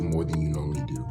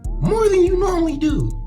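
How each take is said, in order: First: It is said in a natural speaking voice. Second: It is said in a put-on character voice. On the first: "I'm probably not gonna do that voice no more" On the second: "This is this is sustainable hand speaking"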